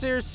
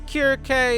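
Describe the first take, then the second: First: The name begins with a soft s sound. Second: The name begins with a hard k sound. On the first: It follows a later English change to the name. The speaker calls it wrong. "It's not pronounced Circe" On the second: It follows how the name is said in Greek. The speaker calls it right. "Her name is Kirke"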